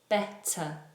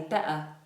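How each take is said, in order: First: The T is pronounced clearly. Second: The T is replaced by a glottal stop. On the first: It sounds like normal standard English. "If we're speaking normal standard English, Kareem, then say better" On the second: It sounds regional, like a Cockney speaker. "a Cockney might say better"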